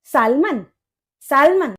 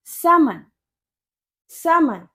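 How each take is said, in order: First: सालमन with the l sounded; spelling pronunciation. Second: समन as "SAM-un", no l; silent l. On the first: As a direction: say सालमन as "SAAL-mun", clear l. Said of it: "लेकिन एल कहाँ गायब कर दिया". (सालमन में "ल" साफ़ बोलकर) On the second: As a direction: drop the l in समन, "SA-mun". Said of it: "इसकी करेक्ट प्रोनाउंसिएशन होती है". (समन, बिना "ल" के) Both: Shown as a demonstration.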